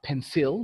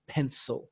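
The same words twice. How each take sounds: First: It is said with a Bahasa-style pronunciation. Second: It is said with an English-style pronunciation. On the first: The speaker calls it wrong. "It's not pencil like in Bahasa" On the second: The speaker calls it right. "but it's pencil"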